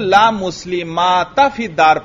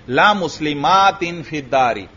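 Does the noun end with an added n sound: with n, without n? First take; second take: without n; with n. First: The noun ends without any n sound. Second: The noun ends with a kasra and n sound. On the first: The noun is treated like any other indeclinable noun after la. "यहां कसरा पढ़ेंगे ही नहीं" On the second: The nunation is kept as a compensation nunation. "इसको इसी तरह तनवीन के साथ पढ़ेंगे"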